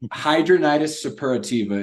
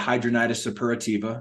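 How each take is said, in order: First: It is said slowly. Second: It is said at normal speed.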